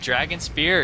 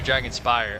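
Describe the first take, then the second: First: The last part rhymes with 'ear'. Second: The last part rhymes with 'fire'. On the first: The speaker calls it wrong. "I just say randomly Dragon Spear because that's what I used to call it as a kid" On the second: The speaker calls it right. "It's definitely Dragon Spire"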